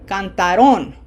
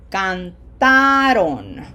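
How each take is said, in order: First: The stress is not on the middle syllable. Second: The stress is on the middle syllable. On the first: The speaker calls it wrong. "As opposed to cantaron, if it were on this syllable" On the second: The speaker calls it right. "emphasis is on syllable number two"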